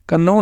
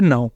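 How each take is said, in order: First: A k sound is heard before the n. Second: The word starts directly with the n sound. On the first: The speaker calls it wrong. "कन्नौ नहीं से बोला" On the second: The speaker calls it right. "ये है नाउ"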